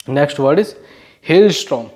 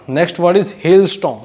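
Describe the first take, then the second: First: Said in the usual way. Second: Slow dictation. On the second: Shown as a demonstration.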